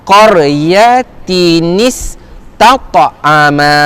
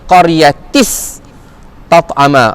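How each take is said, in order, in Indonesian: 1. Bunyi 'n' penyambung menyambungkan kedua kata. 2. Bunyi 'n' penyambung tidak dibaca. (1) "Tis dia bukan tis, dia tinis ya" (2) "jangan kita baca"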